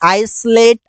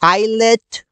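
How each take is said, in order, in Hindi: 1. "L" से पहले "S" ध्वनि सुनाई देती है। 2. "L" से पहले कोई "S" ध्वनि नहीं सुनाई देती। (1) "नो की आइसलेट" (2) "इससे बोलते हैं आइलेट"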